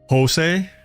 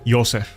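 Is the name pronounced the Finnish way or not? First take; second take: not Finnish; Finnish. First: The name is said without Finnish pronunciation. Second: The name is said with Finnish pronunciation.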